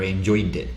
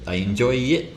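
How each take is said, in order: First: The ending sound links into the next vowel. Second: The ending sound after enjoy is dropped. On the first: The speaker calls it right. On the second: The speaker calls it wrong.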